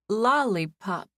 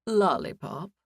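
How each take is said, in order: First: Slow, hesitant "Lollipop"; reluctantly. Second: Puzzled, serious "Lollipop?" with a questioning lift; a straight-faced clerk checking the word "Lollipop?"; curious question. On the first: Guest gives her silly name to the clerk, reluctantly. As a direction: drag the word "Lollipop" out unwillingly, embarrassed. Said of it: "I said reluctantly". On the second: Clerk repeats the guest's odd name, curious and serious. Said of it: "he asked with a curious, serious expression". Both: Acted.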